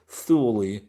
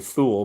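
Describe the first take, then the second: First: The word rhymes with 'newly'. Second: The word does not rhyme with 'newly'. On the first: "it rhymes with newly, so Thule" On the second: "I was going to say Thule"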